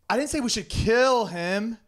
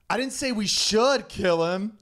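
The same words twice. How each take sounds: First: The stress falls on the word 'kill'. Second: The stress falls on the word 'should'.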